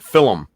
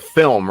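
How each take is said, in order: First: "film" pronounced "fillum"; two-syllable FILM. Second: Said in the usual way. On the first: Shown as a demonstration. Showing friends how the character says it, "film" as "fillum". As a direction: add an extra vowel to "film": "fil-um". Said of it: "he pronounces it film". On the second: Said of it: "he meant film, right?".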